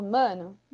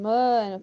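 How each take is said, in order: First: Said in the usual way. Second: MANO with the A drawn out and louder; emphatic long vowel. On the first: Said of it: "Então, se eu falo". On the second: Shown as a demonstration. Teacher flagging something important to say, drawn-out emphatic mano. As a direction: lean hard on a long A in mano. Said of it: "alguma coisa importante ali pra dizer".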